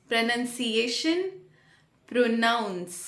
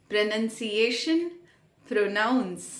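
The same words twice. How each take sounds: Both takes have the same delivery.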